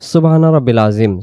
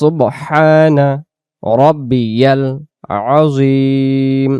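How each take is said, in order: First: The middle word is said 'rabbil', without a 'y'. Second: The middle word is said 'rabbiyal', with a 'y'. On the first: The speaker calls it wrong. "যদি এভাবে পড়ি তাহলে উচ্চারণের এখানে ভুল হয়ে যাবে।" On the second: The speaker calls it right. "এভাবে করে বলতে হবে।"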